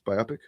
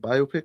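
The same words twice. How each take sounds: First: It sounds like one word, close to biopsy. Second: It sounds like two words, bio and pic. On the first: The speaker calls it right. "it sounds like something like you would you would get one of those to see if you have cancer" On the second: The speaker calls it wrong. "It's not biopic"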